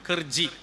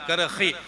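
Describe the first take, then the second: First: The middle consonant is a j sound. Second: The middle consonant is an h sound. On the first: "കർജി അങ്ങനെയാണല്ലോ" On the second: "കർഹി ഹാ ഉച്ചരിക്കാൻ കഴിയൂലല്ലോ"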